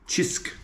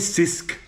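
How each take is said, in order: First: The word begins with a 'ch' sound. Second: The word begins with an 's' sound. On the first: The speaker calls it right. "It's a chisk" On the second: The speaker calls it wrong. "Many tourists call it sisk because they say the s"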